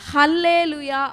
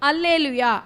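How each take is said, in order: First: The word begins with an h sound. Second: The word begins with a plain vowel sound. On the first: It follows the Hebrew form of the word. "ஹீப்ரூவில் ஸ்கிரிப்டை நீங்கள் follow பண்ணி" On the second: It follows the Greek and Latin form of the word. "க்ரீக் Latin ஸ்கிரிப்டை நீங்கள் follow பண்ணி"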